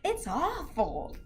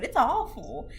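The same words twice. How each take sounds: First: Drawn out slowly, dismayed; slow, heavy "awful". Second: Said in the usual way. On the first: Real, not acted. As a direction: stretch it out in dismay.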